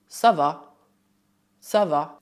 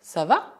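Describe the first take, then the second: First: Ça va? with the pitch falling on va; falling answer. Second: Ça va? with the pitch rising on va; rising question. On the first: Teacher showing the answer intonation to students, falling. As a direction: let va drop down, settled and final. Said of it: "dito com uma entonação descendente". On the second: Teacher showing question intonation to students, rising. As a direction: lift va? up like a real question. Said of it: "com uma entonação ascendente". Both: Shown as a demonstration.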